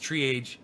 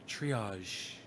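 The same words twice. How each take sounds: First: The word is pronounced in an English way. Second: The word is pronounced in a French way. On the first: The speaker calls it wrong. "He still doesn't know how to say triage. He says triage" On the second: The speaker calls it right. "but it's triage. I got to teach him the French"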